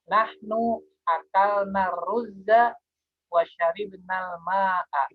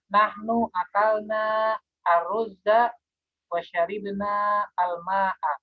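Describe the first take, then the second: First: The article is linked smoothly into the preceding word. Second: The article is pronounced separately from the preceding word.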